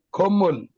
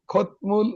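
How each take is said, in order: First: খম্মল with a doubled m, no t sound; correct pronunciation. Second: খতমূল with a clear t before the m; wrong spelled reading. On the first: Teacher gives students the right way: খম্মল, m held. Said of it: "উচ্চারণ হবে খম্মল". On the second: Teacher shows the wrong, spelled-out way: খতমূল, t sounded. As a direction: read খতমূল letter by letter, as spelled. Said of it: "কিন্তু উচ্চারণ হবে খম্মল". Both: Shown as a demonstration.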